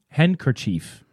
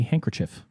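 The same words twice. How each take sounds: First: The last syllable sounds like 'cheef'. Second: The last syllable sounds like 'chif'. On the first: The speaker calls it right. "It's still chief at the end" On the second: The speaker calls it wrong. "a lot of people mispronounce it"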